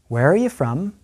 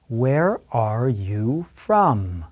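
First: The question is spoken quickly. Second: The question is spoken very slowly. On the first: "one more time at a fast pace" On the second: "listen and repeat very slowly after me"

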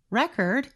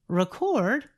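First: The stress is on the first syllable. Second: The stress is on the second syllable. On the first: The word is a noun. "When we stress the first part of the word" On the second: The word is a verb. "When we stress the second part of the word"

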